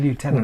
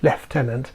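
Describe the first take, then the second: First: The word begins with a 'loo' sound. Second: The word begins with a 'left' sound. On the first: This is the American way of saying it. "they don't want to sound American by saying lieutenant" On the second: This is the English way of saying it. "as we call them in England... pronounce it lieutenant"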